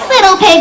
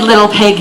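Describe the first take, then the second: First: It is said in a fake old lady voice. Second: It is said in a loud gruff wolf voice. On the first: The wolf is pretending to be harmless. "He was using his fake-sounding old lady voice again" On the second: The wolf shows his true threatening self. "replaced by a loud-sounding wolfy voice again"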